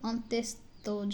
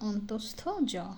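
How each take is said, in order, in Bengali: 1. প্রথম অংশের পরে একটি অতিরিক্ত 'ye' স্বরধ্বনি আসে। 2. প্রথম অংশের পরে কোনো অতিরিক্ত স্বরধ্বনি আসে না। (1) "অনেকেই অন্ত্যেস্ত জ ... বলে থাকে, কিন্তু না" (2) "এটার শুদ্ধ উচ্চারণ অন্তস্থ জ"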